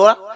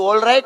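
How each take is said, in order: First: The words are shortened into one clipped word. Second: Both words are said fully and clearly. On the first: "ઓલ રાઈટ માંથી કાઢ ને ઓરા" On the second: "ઇંગ્લિશમાં એમ કે બધું ઓલ રાઈટ"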